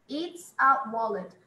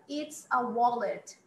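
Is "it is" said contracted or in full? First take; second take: contracted; contracted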